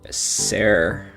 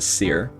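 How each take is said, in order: First: The word does not rhyme with sear. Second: The word rhymes with sear. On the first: The speaker calls it wrong. "I'm probably pronouncing that wrong" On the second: The speaker calls it right. "it rhymes with like if you sear a steak"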